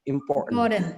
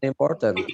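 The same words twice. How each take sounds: First: The middle t is held back before n. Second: The middle t is clearly released. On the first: The speaker calls it right. "Bacanya important. ... langsung ditahan" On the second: The speaker calls it wrong. "bukan important"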